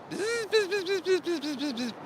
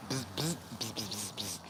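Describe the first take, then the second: First: High, rapid imitated insect buzzing; cicada buzz. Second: Quiet, broken bursts of imitated buzzing; annoyed cicada buzz. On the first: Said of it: "they make this sound like". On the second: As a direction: buzz low and short, a cicada warning someone off. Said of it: "he was making a sound like".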